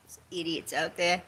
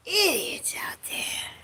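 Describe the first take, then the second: First: Said in the usual way. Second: Slow, breathy, higher whisper. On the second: Real, not acted. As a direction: hiss it with contempt. Repeats it whispered.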